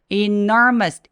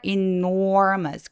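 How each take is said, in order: First: Every syllable is said with equal tense force. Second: The unstressed syllables are said loosely and weakly. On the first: The speaker calls it wrong. "enormous가 아니라" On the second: The speaker calls it right. "A or B 할 때 or 발음이 있는 것처럼 enormous라고 소리 내주세요"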